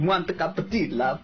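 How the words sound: It is spoken in an Italian accent.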